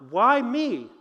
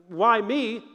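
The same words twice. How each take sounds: First: Earnest "Why me?", truly asking; sincere question. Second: Mock self-pitying "Why me?"; a light whiny "Why me?", feeling sorry for yourself; pitiful whine. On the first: Retold or imitated. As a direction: ask "Why me?" as a real question to God. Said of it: "really genuinely asking God". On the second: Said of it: "in a pitiful way".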